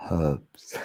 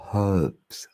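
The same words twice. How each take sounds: First: Herbs dropping the H, erbs; British-style erbs, no H; herbs without the H. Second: Herbs with a clear H sound; American herbs with the H. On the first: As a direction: leave the H off herbs. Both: Shown as a demonstration. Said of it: "it's hard to say it with the H".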